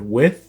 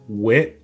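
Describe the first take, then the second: First: The word ends with a th sound. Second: The word ends with a t sound. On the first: "instead of with" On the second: "th is stopped. It becomes wit. So it's pronounced like a T"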